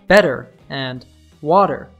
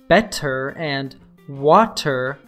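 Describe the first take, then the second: First: The T is said as a soft D. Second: The T is said as a clear T. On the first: "are pronounced as" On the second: "the word better and water"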